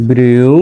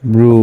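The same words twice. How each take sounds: First: "ব্রিউ" with a glide from i into u; drawn-out letter blend. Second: "ব্রু" as bru, one long oo vowel; simple blended sound. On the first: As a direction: say "ব্রিউ" as bri-u, keeping the i audible. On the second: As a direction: say "ব্রু" with no i glide. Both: Shown as a demonstration. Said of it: "বি আর ইউ".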